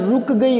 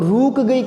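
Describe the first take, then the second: First: The vowel in the first word is short. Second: The vowel in the first word is long. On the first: The speaker calls it right. "होता है" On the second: The speaker calls it wrong. "कभी नहीं होता"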